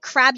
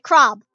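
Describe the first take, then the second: First: The word is said in a plain American accent. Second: The word is said in a Jamaican accent. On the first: The speaker calls it wrong. "you don't say crab" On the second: The speaker calls it right. "you say crab"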